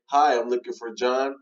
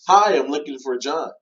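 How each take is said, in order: First: Said in the usual way. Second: Bright, louder hello with a lift on Hi; excited greeting. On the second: Shown as a demonstration. Cold caller greeting a seller, excited. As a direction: sound thrilled to reach him. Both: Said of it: "one had more excitement".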